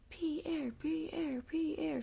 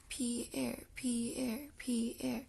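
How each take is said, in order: First: Higher sing-out chant, no real volume; chanted, call the name out high, falling each time; chanted, contained storyteller's shout, pitched up; mock shouted chant. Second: Understated rhythmic chant of a name; light, measured chant. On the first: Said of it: "shouted Amelia Bedelia's parents". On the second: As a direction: chant it evenly at normal pitch, drawn out in two beats. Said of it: "clap and chant Pierre's name". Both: A narrator's reading.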